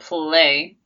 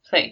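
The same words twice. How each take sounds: First: The L is a full, voiced L sound. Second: The L is a soft, voiceless L sound. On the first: The speaker calls it wrong. "Not play" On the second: The speaker calls it right. "it's not a really hard L sound"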